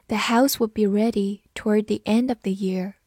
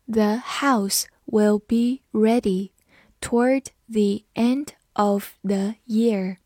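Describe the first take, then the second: First: Said in the usual way. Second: Slow, word-by-word teaching delivery; slow read-through. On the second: Shown as a demonstration. Teacher models the second sentence for students, slow read-through. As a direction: read it slowly with small gaps between words. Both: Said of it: "好，慢读一遍".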